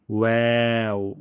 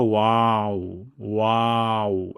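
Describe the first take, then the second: First: Slow ওয়াও as "weu", spread ae; correct waw. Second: ওয়াও as slow broad "wau"; wrong waw. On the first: Teacher showing correct sound, thin "weu" ওয়াও. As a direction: round lips, then spread for ওয়াও. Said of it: "আর উচ্চারণটি হবে". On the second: Teacher showing the error, broad "wau" ওয়াও. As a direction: open aa in ওয়াও, lips not spread. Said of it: "আর ভুলটি হলো". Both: Shown as a demonstration.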